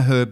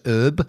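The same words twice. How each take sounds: First: It is said with a British accent, h pronounced. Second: It is said American-style, h silent.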